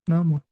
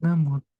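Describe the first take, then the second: Both takes have the same delivery.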